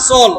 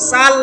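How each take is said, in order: First: The vowel is a rounded, 'o'-like sound. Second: The vowel is an open, unrounded 'a'. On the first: The speaker calls it right. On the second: The speaker calls it wrong. "সাল না সল?"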